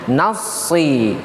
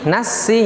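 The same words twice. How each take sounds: First: The s sound is raised and thick. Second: The s sound is thin and light. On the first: "huruf shad agak diangkat sedikit bunyinya" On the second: "ya ini hurufnya huruf sin"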